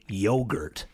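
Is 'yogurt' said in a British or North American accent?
North American. It is said in a North American accent.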